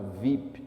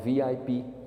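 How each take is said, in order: First: It is said as a single word. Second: Each letter is said separately. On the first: This is how it is said in Brazil. "aqui no Brasil a gente fala" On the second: This is how it is said in the United States. "letra por letra"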